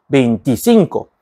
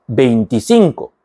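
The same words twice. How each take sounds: The two takes are said the same way.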